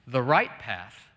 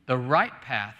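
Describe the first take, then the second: No difference in how they are said.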